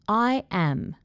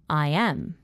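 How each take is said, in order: First: The words are said slowly and separately. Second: The words are joined by a gliding Y sound. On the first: "I'm going to say it slowly" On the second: "Then I will say it with intrusion"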